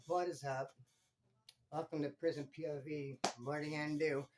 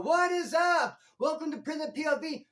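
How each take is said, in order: First: Low, soft, deflated greeting; depressed intro. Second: Loud, high upbeat channel intro; hyped intro. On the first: Vlogger showing his intro when depressed, low and soft. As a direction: say it like you can barely care. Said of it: "in a saddened state". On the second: Vlogger showing his usual intro, loud and high. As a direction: shout it like a pumped host. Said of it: "come on and be all". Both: Shown as a demonstration.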